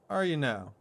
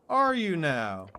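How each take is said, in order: First: It is said at normal volume. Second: It is said louder.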